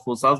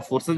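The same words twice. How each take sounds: First: फोर्सास with a long a in the second syllable, "for-saas"; Forsas pronunciation. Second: फोर्सेस with an e sound in the second syllable, "for-ses"; Forces pronunciation. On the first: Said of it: "कुछ लोग फोर्सास बोलते हैं". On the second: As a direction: say फोर्सेस as "for-sez". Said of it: "कुछ लोग फोर्सेस बोलते हैं". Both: Shown as a demonstration.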